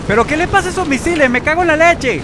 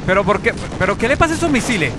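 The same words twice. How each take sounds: First: Much higher, louder furious outburst; outraged yell. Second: Higher, louder and fast complaint; exasperated shout. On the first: Gamer yelling in outrage at wasted missiles. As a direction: scream your disbelief at the missiles. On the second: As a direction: gamer shouting at his missiles in disbelief. Missiles misfire. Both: Real, not acted.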